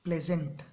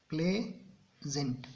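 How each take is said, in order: First: Said in the usual way. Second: प्लेजेंट stretched out syllable by syllable; प्लेजेंट said slowly and clearly; slow careful pronunciation. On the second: Shown as a demonstration. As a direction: spell out प्लेजेंट slowly for students.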